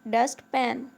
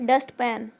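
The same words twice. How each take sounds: The two takes are said the same way.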